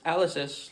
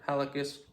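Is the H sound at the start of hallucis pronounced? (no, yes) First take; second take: no; yes. First: The word begins with no H sound. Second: The word begins with an audible H sound.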